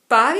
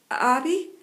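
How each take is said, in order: First: It is said loud and firm, nearly shouted. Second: It is said a little louder and shaky.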